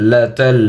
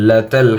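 Both takes have the same delivery.

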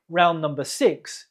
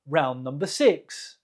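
Both takes have the same delivery.

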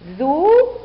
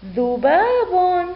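First: Long separated syllables with pauses; teacher's slow sounding-out. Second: ذباب joined as one slow, high word; teacher's drawn-out whole-word model; blended word reading. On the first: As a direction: break ذباب into dhu - baa - bun. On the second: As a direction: read dhubaabun unbroken. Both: Shown as a demonstration. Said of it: "لنقرأ".

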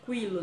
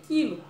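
First: Quilo read as "kwilo"; u wrongly sounded. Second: Quilo read as "kilo", no w; silent u. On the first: Teacher showing the misreading to avoid, quilo read "kwilo". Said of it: "Eu não posso ler quilo". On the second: Teacher showing children the reading, quilo read "kilo". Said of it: "Eu tenho que ler quilo". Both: Shown as a demonstration.

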